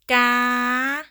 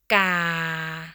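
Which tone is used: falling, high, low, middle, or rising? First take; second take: high; low. First: The pitch stays high. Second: The pitch stays low. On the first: "High tone" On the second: "Low tone"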